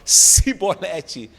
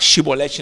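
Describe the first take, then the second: First: The word begins with an s sound. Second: The word begins with an sh sound. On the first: This is what the speakers could manage. The speaker calls it wrong. "não conseguiam, falavam cibolete" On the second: This is the intended pronunciation. The speaker calls it right. "os efraimitas tentavam falar chibolete"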